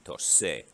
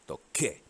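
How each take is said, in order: First: The middle consonant is a soft s sound. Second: The middle consonant is a hard k sound. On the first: The speaker calls it wrong. "the C turns into a soft C in front of E" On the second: The speaker calls it right. "You want it to stay hard"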